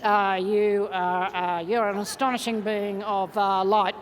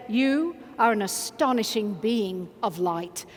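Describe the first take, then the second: First: Half-hearted hesitation. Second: Slow, low, deliberate sincerity; with full meaning. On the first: Coach mocks a reluctant buddy's compliment, hesitant and half-hearted. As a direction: demonstrate how not to say it, unsure and dragging. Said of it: "don't turn to them and do this". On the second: Coach shows buddies what to say to each other, full meaning. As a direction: say it steadily, meaning every word. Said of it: "say with every bit of meaning you've". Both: Shown as a demonstration.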